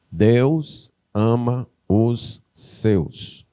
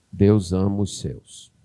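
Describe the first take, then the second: First: Drawn-out, every word of "Deus ama os seus" stretched; preacher's slow solemn emphasis; very slow and weighty. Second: Said in the usual way. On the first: Shown as a demonstration.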